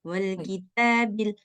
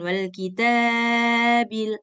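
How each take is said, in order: First: The vowel after 't' is held briefly. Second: The vowel after 't' is stretched too long. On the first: The speaker calls it right. "Dua harkat aja. Sudah cukup dia" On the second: The speaker calls it wrong. "Jangan wal kitabil. udah lebih dia dua harkat"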